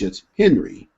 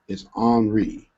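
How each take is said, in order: First: The name is said with an English pronunciation. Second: The name is said with a French pronunciation. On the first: "But in English, it's Henry" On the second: "in French, it's Henri. I'm probably not pronouncing that right"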